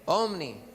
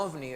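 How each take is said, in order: First: Omni said with a clear m, a bit raised and firm; omni, the right word. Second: Ovni said with a clear v, the UFO word; ovni, not omni. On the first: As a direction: stress the m in Omni. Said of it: "que comienzan con omni". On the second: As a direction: say ovni with v in the middle. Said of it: "esos objetos voladores no identificados". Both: Shown as a demonstration.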